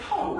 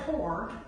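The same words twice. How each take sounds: First: The word is said in a casual dialect way. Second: The word is said in a standard way. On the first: "they say poor" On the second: "they don't say poor"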